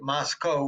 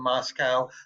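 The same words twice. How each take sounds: First: The ending rhymes with Costco. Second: The ending does not rhyme with Costco. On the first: "you pronounce it Moscow ... to rhyme with Costco" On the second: "rather than Moscow"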